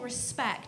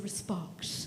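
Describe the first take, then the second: First: It is said in a plain, ordinary accent. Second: It is said in an exaggerated posh accent. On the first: "instead of saying respect" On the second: "he'd say respect"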